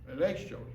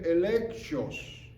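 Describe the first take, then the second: First: "electios" said quickly, lower and softer, sounds run together; quick softer try. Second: "electios" said slowly and carefully, sounded out syllable by syllable; careful try. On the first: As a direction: toss off "electios" fast and low. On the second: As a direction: draw out "electios", feeling for each sound. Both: Shown as a demonstration. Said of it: "Yo no sé pronunciar eso".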